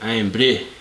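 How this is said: It is said in a put-on Scottish accent.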